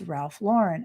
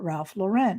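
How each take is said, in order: First: Lauren is said like the actress's first name. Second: Lauren is said unlike the actress's first name. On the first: The speaker calls it right. "he adopted that name from his favorite actress, Lauren Bacall" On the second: The speaker calls it wrong. "It's not Ralph Lauren"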